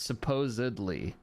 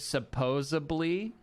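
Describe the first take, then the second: First: The middle has a clear D sound. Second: The middle has no clear D sound. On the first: The speaker calls it right. "but it's supposedly" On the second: The speaker calls it wrong. "I heard King say supposedly"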